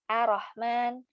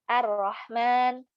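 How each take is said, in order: Both takes have the same delivery.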